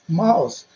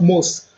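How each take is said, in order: First: The o glides from ah to ooh. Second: The o is a plain vowel without a glide. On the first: The speaker calls it right. "but mouse" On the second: The speaker calls it wrong. "Not mouse"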